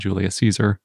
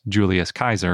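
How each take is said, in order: First: Caesar begins with a soft s sound. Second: Caesar begins with a hard k sound. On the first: This is the usual modern pronunciation. "and not Julius Caesar" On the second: This is the likely original Latin pronunciation. "Linguists usually say that it was pronounced Julius Kaiser"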